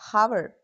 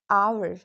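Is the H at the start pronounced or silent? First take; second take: pronounced; silent. First: The word starts with an H sound. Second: The word starts with a vowel sound. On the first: The speaker calls it wrong. "not hour" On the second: The speaker calls it right. "Silent H appears in many important words"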